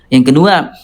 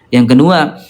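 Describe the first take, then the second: No difference in how they are said.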